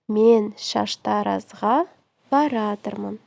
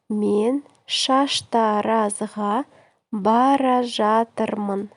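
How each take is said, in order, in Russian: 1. Глагол сжат в одно короткое слово. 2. Глагол произносится двумя полными словами.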